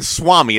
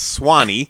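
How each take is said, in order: First: The word has an m sound in the middle. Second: The word has an n sound in the middle. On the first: The speaker calls it wrong. "It's not even Swami" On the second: The speaker calls it right. "It's Swanee"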